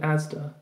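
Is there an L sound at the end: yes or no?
no. It ends in a plain vowel with no L.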